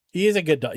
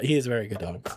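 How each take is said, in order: First: Said in the usual way. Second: Tender praise. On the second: Acted. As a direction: coo it to a good boy. Praising the dog twice.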